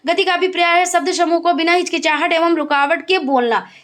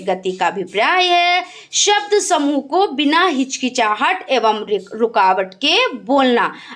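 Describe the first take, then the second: First: It is read very fast. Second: It is read at a moderate pace.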